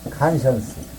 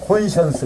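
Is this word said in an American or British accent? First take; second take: American; British. First: It is said in an American accent. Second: It is said in a British accent. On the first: "미국식으로 부, 발음하면" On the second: "영국식으로 하면"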